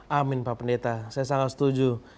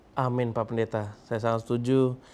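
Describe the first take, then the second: Both takes have the same delivery.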